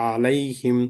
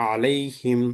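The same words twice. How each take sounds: No difference in how they are said.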